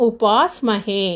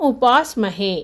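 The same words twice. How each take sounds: No difference in how they are said.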